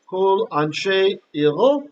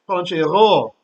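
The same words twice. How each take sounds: First: Each word is said separately with its own accent. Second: It runs together, accenting only the last word.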